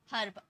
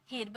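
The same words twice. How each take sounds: First: Said in the usual way. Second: हिर्ब mispronounced with a short i; wrong vowel. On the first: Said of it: "अ का sound आता है". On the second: Shown as a demonstration. Teacher shows students what to avoid, हिर्ब with a wrong i. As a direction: put an i sound before the r in हिर्ब. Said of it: "हिर्ब नहीं पढ़ना".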